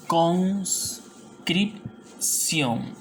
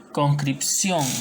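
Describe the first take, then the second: First: "Conscripción" very slowly as cons, crip, ción; long pauses between cons, crip and ción in "Conscripción"; split into syllables. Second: Said in the usual way. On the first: Shown as a demonstration. Teacher showing a four-consonant word, "Conscripción" syllable by syllable. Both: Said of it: "vendría a ser separo".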